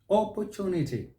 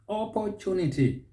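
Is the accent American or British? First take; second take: British; British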